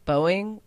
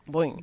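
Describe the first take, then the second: First: The word is said as two separate syllables. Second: The word is said quickly as one syllable. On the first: "I pronounce it Boeing, like hard O-ing" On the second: "pronounce it like Boing"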